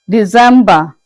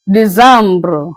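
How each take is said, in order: First: Said in the usual way. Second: December said the French way, dee-zam-bro; French pronunciation. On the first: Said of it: "in French is missing". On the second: Shown as a demonstration. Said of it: "pronounced as December".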